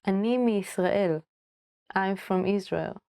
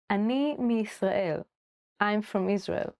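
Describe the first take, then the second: No difference in how they are said.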